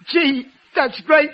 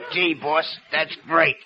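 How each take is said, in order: First: It is said in his normal voice. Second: It is said in a put-on mystery voice.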